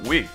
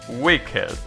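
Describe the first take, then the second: First: The word is said as one syllable. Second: The word is said as two syllables. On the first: The speaker calls it wrong. "It's not wick" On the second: The speaker calls it right. "So the ed is pronounced"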